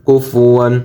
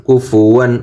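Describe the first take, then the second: Both takes have the same delivery.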